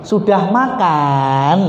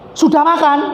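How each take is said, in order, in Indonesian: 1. Diucapkan dengan pelan dan nada malas yang panjang. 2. Diucapkan dengan keras dan intonasi tinggi yang tegas. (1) "tahu kita kan digleor nih"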